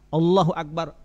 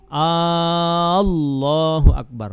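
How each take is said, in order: First: The opening vowel of Allah is kept short. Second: The opening vowel of Allah is drawn out long. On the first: It firmly states that God is great. The speaker calls it right. "padahal Allahu akbar, Allah maha besar. Itu jazam, yakin pasti" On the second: It asks whether God is truly great. The speaker calls it wrong. "Jangan dipanjangkan lapas ah, hamzah pada lapas Allah. Allahu akbar, enggak boleh"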